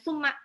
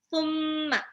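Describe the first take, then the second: First: The doubled m is said without a nasal hum. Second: The doubled m is held with a nasal hum. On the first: The speaker calls it wrong. "mimnya tasdid itu harus digunang, jadi nggak boleh summa gitu" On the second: The speaker calls it right. "harus digunang"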